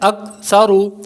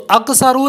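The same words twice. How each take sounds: First: The k sound is closed smoothly without any bounce. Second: The k sound is released with an echoing bounce. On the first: The speaker calls it right. "बल्कि अक्सरु" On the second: The speaker calls it wrong. "तो अक्सरु नहीं पढ़ना, काफ पर कलकला नहीं करना"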